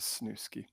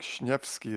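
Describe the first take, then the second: First: The surname is said with an American pronunciation. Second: The surname is said with a Polish pronunciation. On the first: "the Americanized English version of my last name" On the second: "the more appropriate pronunciation as we're both Polish"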